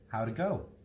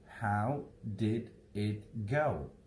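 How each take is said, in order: First: The word 'did' is reduced and barely heard. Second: Every word is pronounced fully and separately.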